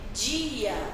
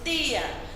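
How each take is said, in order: First: It is said in a Rio de Janeiro accent. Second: It is said in a Northeastern Brazilian accent. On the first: This is the Rio de Janeiro way of saying it. "e falam também dia" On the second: This is the Northeastern way of saying it. "E falamos dia"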